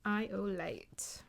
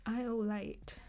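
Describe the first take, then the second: First: Slow, hushed whisper; slow whispered channeling; channeled whisper. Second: Said in the usual way. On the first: Shown as a demonstration. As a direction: breathe the message out slowly. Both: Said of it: "This is what I channeled".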